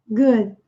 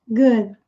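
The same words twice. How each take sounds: No difference in how they are said.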